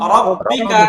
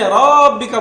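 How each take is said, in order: First: The first vowel is kept short. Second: The first vowel is drawn out long. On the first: The speaker calls it right. "কি বলতে হবে?" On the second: The speaker calls it wrong. "এখানে রব্বিকা বলা যাবে না"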